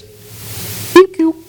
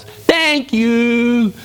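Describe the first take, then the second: First: Tiny, very high squeak through puckered lips; pursed-mouth frog. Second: Big, high, drawn-out frog voice; wide-mouthed frog. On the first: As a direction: shrink the frog down to a little squeak. Frog hiding its wide mouth. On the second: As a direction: stretch it out with the mouth wide open. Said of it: "the little wide-mouthed frog goes". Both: Acted.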